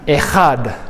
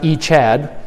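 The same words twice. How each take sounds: First: "Echad" as eh-KHAD, throaty scraped kh; guttural pronunciation. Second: "Echad" as ee-CHAD, English ch as in chat; wrong pronunciation. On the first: Teacher corrects the class, guttural "Echad" as eh-khad. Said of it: "where we really get the". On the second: Teacher shows the wrong way, "Echad" as ee-chad. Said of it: "that second word is not Echad". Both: Shown as a demonstration.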